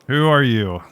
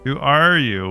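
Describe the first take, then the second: First: It is said in a plain voice. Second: It is said in a mocking, obnoxious voice.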